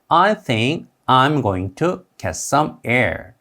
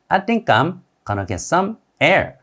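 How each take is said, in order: First: The words are said separately, with full going to. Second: The words run together, with going to as gonna.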